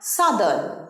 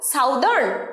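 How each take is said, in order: First: The first vowel sounds like 'uh'. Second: The first vowel sounds like 'ow'. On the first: The speaker calls it right. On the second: The speaker calls it wrong.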